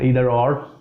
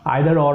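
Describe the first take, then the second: First: Either is said with an American pronunciation. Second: Either is said with a British pronunciation. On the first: "is American English" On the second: "is British"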